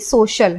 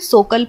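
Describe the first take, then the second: First: The middle consonant is an sh sound. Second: The middle consonant is a k sound. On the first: The speaker calls it right. "तो इसे हम श की ध्वनि देंगे" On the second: The speaker calls it wrong. "ना ही हम इसे सोकल पढ़ेंगे"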